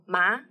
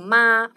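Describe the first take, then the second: First: The pitch rises from middle to high. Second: The pitch stays high and level. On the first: It means tingling or numb. "If we put second tone" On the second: It means mom. "first tone, means mom"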